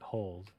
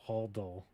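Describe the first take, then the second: First: The word is said as one syllable. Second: The word is said as two syllables. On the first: "it should sound like hold" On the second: "if you really want to pronounce it, it'd be like holdle"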